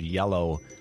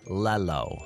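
First: The word begins with a Y sound. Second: The word begins with an L sound. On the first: The speaker calls it right. "that's a Y sound" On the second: The speaker calls it wrong. "with L's"

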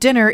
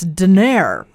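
First: The stress is on the first syllable. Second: The stress is on the second syllable. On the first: "instead of" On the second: "In this dialect, the second syllable of most words were stressed"

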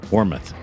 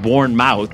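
First: The N sound is left out. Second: The N sound is pronounced. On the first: The speaker calls it right. "apparently you don't say the N" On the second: The speaker calls it wrong. "I know it's not Bournemouth, which is what I first said"

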